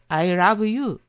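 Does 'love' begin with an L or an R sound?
R. Love begins with a Japanese-style R sound. It says the speaker rubs or wipes someone.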